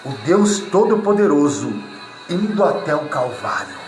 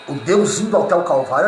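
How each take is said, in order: First: It is said very slowly. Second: It is said at normal speed.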